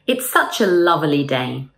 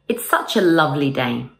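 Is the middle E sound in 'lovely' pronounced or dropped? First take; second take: pronounced; dropped. First: The middle E sound in 'lovely' is pronounced. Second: The middle E sound in 'lovely' is dropped. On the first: The speaker calls it wrong. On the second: The speaker calls it right.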